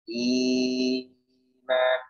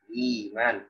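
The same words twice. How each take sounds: First: The long vowel is drawn out much longer. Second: The long vowel is held only briefly. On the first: "bisa empat harokat, bisa enam harokat" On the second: "mad badal dibaca dengan dua harokat saja"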